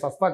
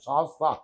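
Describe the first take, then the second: First: The first vowel is short. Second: The first vowel is long. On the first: The speaker calls it wrong. "శాస్త్ర అంటే సస్తా కాదు" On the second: The speaker calls it right. "ఎస్ఏఏఎస్టిహెచ్ఏ శాస్త్ర"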